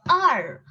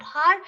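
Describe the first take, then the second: First: "R" for hour, vowel first; falling "R", h dropped; silent H. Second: "har" with a clear h; rising "har", h pronounced; H sounded. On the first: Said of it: "It is R". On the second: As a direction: say "har" as a wrong hour. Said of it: "It's not har". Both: Shown as a demonstration.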